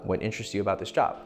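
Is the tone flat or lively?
flat. The question is asked in a flat tone. It feels like a formal job interview. The speaker calls it wrong. "if you're you're in an interview"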